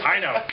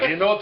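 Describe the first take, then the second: First: The name is said without an extra final syllable. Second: The name is said with an extra final syllable. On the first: The speaker calls it right. "It was Hino" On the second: The speaker calls it wrong. "I thought I was being really clever. I thought Hinote. It wasn't Hinote"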